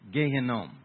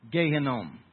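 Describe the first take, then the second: The two takes are said the same way.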